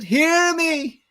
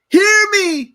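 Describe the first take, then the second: First: It is said plainly, without bitterness. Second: It is said in a bitter, dramatic voice.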